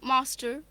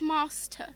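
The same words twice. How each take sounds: First: It is said in an American accent. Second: It is said in a British accent. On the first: "if somebody with an American accent were to speak in these words, they'd say master" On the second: "when we say it in British accent, which both of us share, we say it as master"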